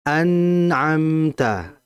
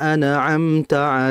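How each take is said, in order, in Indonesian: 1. Huruf n ditahan sebentar dengan aliran yang halus. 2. Huruf n dilepas dengan pantulan yang cepat. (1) "Ditahan dulu" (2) "Atau memantulkan ... Ini salah"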